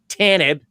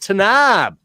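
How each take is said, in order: First: The last syllable has a short 'i' vowel. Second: The last syllable has an open 'a' vowel. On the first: This is how the character says it in the show. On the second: This is the usual pronunciation of the name.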